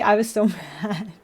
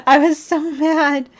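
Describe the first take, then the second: First: Laughing. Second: Slow, high, stressed repeat; emphatic. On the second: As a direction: lean hard into mad. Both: Real, not acted.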